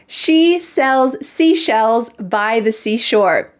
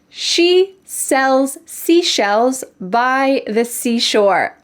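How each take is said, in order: First: The sentence is said at a faster pace. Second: The sentence is said at a slower pace.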